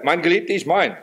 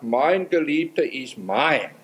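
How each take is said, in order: First: Said in the usual way. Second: Slow and drawn out, mein held long; slow, deliberate verse reading; slow quote. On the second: Shown as a demonstration. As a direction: savour each word of the verse slowly. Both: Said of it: "Die Betonung ist völlig anders geworden".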